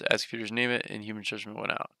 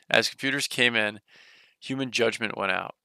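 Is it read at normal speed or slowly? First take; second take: normal; slowly. First: It is read at a normal pace. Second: It is read more slowly.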